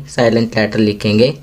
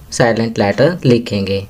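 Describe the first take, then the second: No difference in how they are said.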